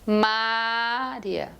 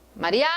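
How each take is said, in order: First: The stress is on the first syllable. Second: The stress is on the last syllable. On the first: "segurar a primeira sílaba ... Ninguém se chama Mária" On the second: "eu deixo a tônica como, como a ulti, o último A"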